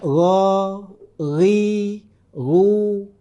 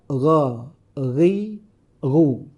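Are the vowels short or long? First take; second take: long; short. First: The vowels are said long. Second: The vowels are said short. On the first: "itu kelompok panjang"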